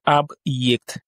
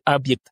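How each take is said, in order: First: A y sound separates the b from the vowel. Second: The b runs straight into the vowel. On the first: The speaker calls it right. "on va dire ab-yect" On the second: The speaker calls it wrong. "Au lieu de abject"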